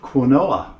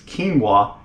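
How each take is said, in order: First: The word is sounded out as it is spelled. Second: The word is not sounded out as spelled. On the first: The speaker calls it wrong. "I pronounced it wrong" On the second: The speaker calls it right. "It's quinoa, but it's spelled like quinoa"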